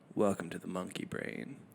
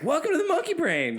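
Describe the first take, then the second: First: It is said calmly, like a public radio host. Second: It is said loudly, like a hyped radio DJ.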